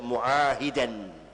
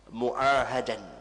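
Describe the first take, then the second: First: The vowel after the h is 'i'. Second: The vowel after the h is 'a'. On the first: "haknya kasrah" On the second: "haknya fathah"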